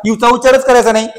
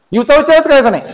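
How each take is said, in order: First: Said in the usual way. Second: Teacher stressing the rule; emphatic repeat. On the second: Shown as a demonstration. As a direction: stress on उच्चारच, higher and firmer.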